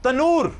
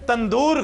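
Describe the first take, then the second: First: The word has no d sound in the middle. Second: The word has a d sound in the middle. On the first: The speaker calls it right. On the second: The speaker calls it wrong.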